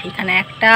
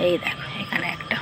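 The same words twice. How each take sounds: First: Said in the usual way. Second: Breathy whisper of এই দেখো, এখানে একটা. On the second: Real, not acted. Pointing out a bud to viewers in a hushed whisper. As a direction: drop to a secret whisper. Showing hibiscus buds on the roof.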